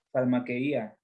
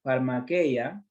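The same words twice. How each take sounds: First: Farmaqueia said far-ma-ke-Í-a with the stress on the i; stressed farmaqueía. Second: Said in the usual way. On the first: Shown as a demonstration. Preacher correcting the word's stress for the congregation, stressed i. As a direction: put the weight on the i of farmaqueia, four clear syllables ending -Í-a. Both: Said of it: "con acento en la I".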